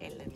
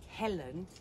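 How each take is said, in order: First: The name begins without any H sound. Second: The name begins with an audible H sound. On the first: The speaker calls it wrong. "not Ellen" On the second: The speaker calls it right. "we don't really pronounce the H's in Portuguese. So I would like to thank Helen"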